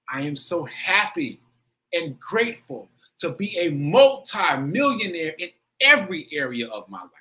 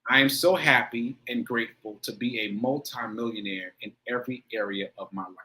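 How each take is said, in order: First: It is said with strong, heartfelt feeling. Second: It is recited flatly, without feeling.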